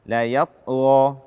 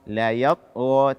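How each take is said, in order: No difference in how they are said.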